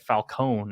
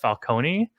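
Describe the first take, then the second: First: The name ends without a final vowel sound. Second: The name ends with a pronounced final vowel. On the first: It hints at the word falcon. The speaker calls it wrong. "they kept pronouncing it Falcone" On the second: It is the ordinary Italian pronunciation. The speaker calls it right. "So you'd pronounce the E at the end"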